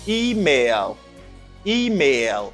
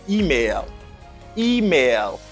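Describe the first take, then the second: Both takes have the same delivery.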